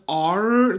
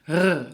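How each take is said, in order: First: The R is made with the tongue tip. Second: The R is made in the throat. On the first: The speaker calls it wrong. "rounded R that you make underneath your tongue" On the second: The speaker calls it right. "This is done in the back of your throat"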